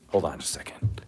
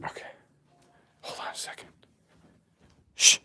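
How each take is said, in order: First: Said in the usual way. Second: Breathy off-mic whisper. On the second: Real, not acted. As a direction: whisper it aside to someone nearby.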